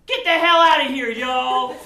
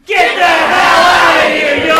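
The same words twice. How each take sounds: First: Shouted send-off, hammy; loud group send-off. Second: Full shout send-off. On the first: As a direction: yell them off stage. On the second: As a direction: shout it even harder. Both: Shown as a demonstration. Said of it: "give them a big".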